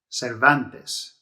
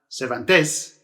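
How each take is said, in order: First: The stress is on the middle syllable. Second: The stress is not on the middle syllable. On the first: The speaker calls it right. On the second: The speaker calls it wrong.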